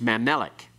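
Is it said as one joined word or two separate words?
joined. The two words run together quickly as one. The speaker calls it right. "It's pronounced as one word"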